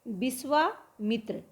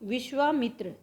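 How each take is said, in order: First: It begins with b and has s. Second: It begins with v and has sh. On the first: This is the Awadhi form. "श के और व के स्थान पर ब और स का प्रयोग किया गया" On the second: This is the standard Hindi form. "इस तरह से लिखते हैं हम"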